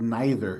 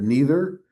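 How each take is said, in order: First: The first vowel sounds like 'eye'. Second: The first vowel sounds like 'ee'.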